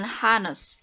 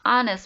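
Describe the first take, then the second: First: The word starts with an audible h sound. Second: The word starts with a vowel, h silent. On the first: The speaker calls it wrong. "bukan honest" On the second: The speaker calls it right. "dibacanya honest"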